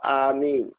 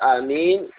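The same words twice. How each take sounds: First: The first vowel is long. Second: The first vowel is short. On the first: "when the Hamza has a mad" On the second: "with the Hamza not having a mad"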